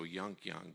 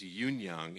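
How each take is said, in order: First: The first name sounds like 'yunk'. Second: The first name sounds like 'yoon'. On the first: The speaker calls it wrong. "so Yunk Young, but it's not" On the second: The speaker calls it right. "It's Yoon like soon. So it's Yoon Young"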